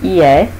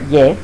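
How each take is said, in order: First: It is said slowly as two syllables. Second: It is said fast as one syllable.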